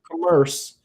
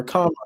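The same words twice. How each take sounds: First: Commerce with a reduced first vowel, kuh-MERSE; alternate pronunciation. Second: Commerce with an open first vowel, KAH-merse; usual pronunciation. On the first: Teacher offering a word two ways, commerce as kuh-MERSE. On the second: Teacher offering a word two ways, commerce as KAH-merse. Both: Shown as a demonstration. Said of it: "the word commerce or commerce".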